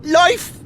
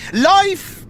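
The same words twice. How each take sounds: First: "life," breaking into a cry, rising; tearful break. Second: A high, emotional first "Life,"; "Life," lifted high, held back before the tears; choked-up farewell. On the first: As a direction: let "life," crack into tears. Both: Acted. Farewell to departing old friend.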